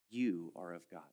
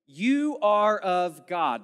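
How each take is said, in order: First: Softer and lower, calm assurance; reassuring. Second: "You are of God." slow and loud, You punched; stress on You. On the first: Preacher gently reading verse four, softer and lower. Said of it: "calm reassuring reading". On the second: Preacher reading verse four, stressing you. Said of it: "The "you" is emphatic". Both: Shown as a demonstration.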